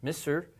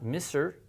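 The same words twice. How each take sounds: No difference in how they are said.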